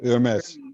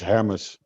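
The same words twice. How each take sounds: First: The name is said with a French pronunciation. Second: The name is said with a Dutch pronunciation. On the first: "if you want to pronounce it in French" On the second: "It's in Dutch. It is Hermes"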